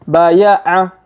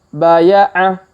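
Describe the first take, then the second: The two takes are said the same way.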